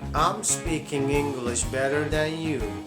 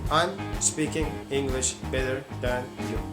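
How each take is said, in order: First: The words run together like one word. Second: Each word is said separately, not linked. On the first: The speaker calls it right. "I said" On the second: The speaker calls it wrong. "I didn't say"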